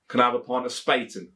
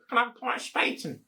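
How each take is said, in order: First: "Can I have a pint of Spaten?" in broad Leicestershire; Leicestershire accent. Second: High, fast put-on posh voice; mock-posh bar order, pitched up; posh pint order. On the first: Shown as a demonstration. To a Leicester barman, in a Leicestershire accent. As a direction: own Leicester accent, down to earth. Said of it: "with a Leicestershire accent like myself". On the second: To a barman, ordering in a mock-posh voice. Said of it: "you wouldn't go".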